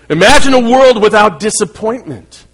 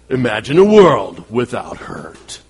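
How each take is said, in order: First: It is said in his normal speaking voice. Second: It is said in a deep movie-trailer voice.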